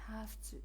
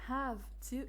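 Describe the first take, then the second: First: The consonant before 'to' is a voiceless f. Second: The consonant before 'to' is a voiced v.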